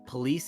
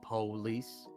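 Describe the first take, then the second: First: It is said in a northern US way. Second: It is said in a southern US way. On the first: This is how northern US speakers say it. "we say" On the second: This is how southern US speakers say it. "they say"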